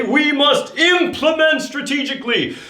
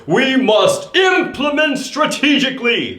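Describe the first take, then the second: First: High, bold warrior declaration. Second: Warrior voice. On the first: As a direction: proclaim it like a warrior. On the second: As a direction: proclaim it like a warrior charging. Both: Shown as a demonstration. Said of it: "say it like a warrior".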